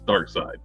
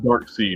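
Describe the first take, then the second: First: The second part sounds like 'side'. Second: The second part sounds like 'seed'. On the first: The speaker calls it right. "It's Dark Side" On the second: The speaker calls it wrong. "Nobody pronounces it Dark Seed"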